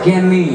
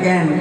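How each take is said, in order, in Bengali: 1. খোলা স্বরধ্বনি ও শেষে 'i' দিয়ে বলা। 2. খোলা স্বরধ্বনি দিয়ে বলা, যেমন 'kan'। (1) "আমাদের বীরভূমের দিকে একটা কথা আছে ক্যানি" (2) "আপনারা এদিকে বলে ক্যান"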